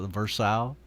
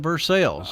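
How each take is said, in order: First: The name is said with a French pronunciation. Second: The name is said with a local American pronunciation. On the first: This is how the name is said in France. "it's spelled exactly like it is over in France" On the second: This is how the locals say the name. "but we call it Versailles"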